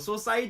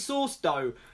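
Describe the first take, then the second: First: It is said as one three-syllable name. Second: It sounds like the words sauce and dough. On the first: The speaker calls it right. "It's Saucedo" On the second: The speaker calls it wrong. "it was kind of a failed joke on my behalf"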